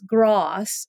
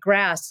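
First: It has a broad 'ah' New England vowel. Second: It has a plain, flat American vowel.

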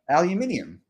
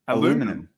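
First: The word is said with five syllables, Australian style. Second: The word is said with four syllables, American style. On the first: "How do Australians say that?" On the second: "That's what they say"

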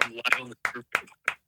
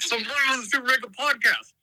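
First: It is said flatly, without excitement. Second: It is said with lively excitement.

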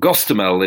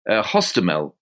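First: The name begins with a G sound. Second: The name begins with an H sound. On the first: This is the Russian form of the name. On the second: This is the Ukrainian form of the name.

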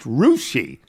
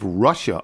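First: The name is said the local way. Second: The name is said the standard way.

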